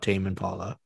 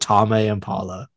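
First: The name is pronounced in a plain, casual way. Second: The name is pronounced with exaggerated, over-careful sounds. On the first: The speaker calls it right. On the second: The speaker calls it wrong.

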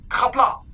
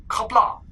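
Both takes have the same delivery.

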